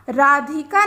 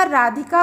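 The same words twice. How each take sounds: First: राधिका with धि lengthened to "dhee"; wrong vowel length. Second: राधिका with a short "dhi". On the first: Teacher showing pupils the misspelt word, राधिका with long ई. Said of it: "राधिका नहीं होता". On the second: Teacher correcting the misspelt word, राधिका with short इ. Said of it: "राधिका होता है". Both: Shown as a demonstration.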